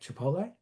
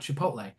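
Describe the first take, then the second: First: The voice rises at the end, as a question. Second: The voice falls at the end, as a statement.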